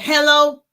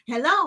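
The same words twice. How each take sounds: First: It sounds angry and unfriendly. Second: It sounds happy and friendly.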